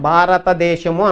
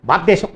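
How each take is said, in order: First: Syllables are evenly clear but the sounds are soft. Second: The word is slurred and hard to make out. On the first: It is still understandable, though not sharp. "స్ఫుటత్వం కొట్టేసాం కానీ స్పష్టత బాగానే ఉంది" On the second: The listener cannot understand it. "అర్థం కాదు"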